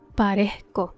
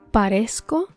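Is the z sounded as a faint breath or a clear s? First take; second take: faint breath; clear s. First: The z is a faint, sigh-like breath. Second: The z is a clear s sound. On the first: "con la pronunciación puertorriqueña" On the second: "la traducción en español estándar"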